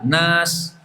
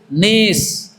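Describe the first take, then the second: First: The vowel is an open a sound. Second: The vowel is tilted toward an e sound. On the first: "setelah nun itu pakai a, huruf a" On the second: "dibaca dengan bacaan miring, seperti sate"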